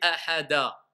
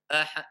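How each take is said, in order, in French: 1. Une voyelle 'a' brève est ajoutée après la consonne finale. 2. La consonne finale se termine par un écho court et net. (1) "Je ne vais pas dire ahada. Parce que là, j'ai mis une fatha" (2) "je vais dire ahad"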